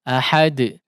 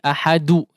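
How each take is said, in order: First: The final d bounces with no added vowel. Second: The final d is followed by a u vowel. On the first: The speaker calls it right. "betul-betul sukun ahad" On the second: The speaker calls it wrong. "tidak juga seperti ahadu"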